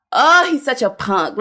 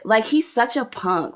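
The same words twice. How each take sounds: First: Scornful shout. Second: Said in the usual way. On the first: Real, not acted. Mocking her husband.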